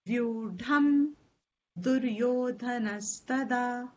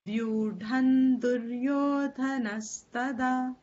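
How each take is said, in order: First: The first word ends in m, then a pause. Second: The first word ends in n, joined smoothly. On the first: The words are kept separate without sandhi. "If you want to keep it as then you must give it a little pause before you say Duryodhan" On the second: The words are joined by sandhi. "We normally do the sandhi"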